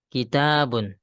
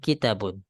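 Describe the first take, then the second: First: The second vowel is held long. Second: The second vowel is cut short. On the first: The speaker calls it right. "Kitabun, ya, bukan kitabun" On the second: The speaker calls it wrong. "ada yang baca hadza kitabun. Ini salah"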